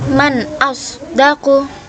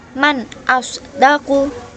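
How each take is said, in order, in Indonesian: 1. N di akhir 'man' jelas. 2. N di akhir 'man' jelas.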